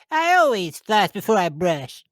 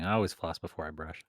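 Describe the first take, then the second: First: It is said in a Butters impression voice. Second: It is said in his normal voice.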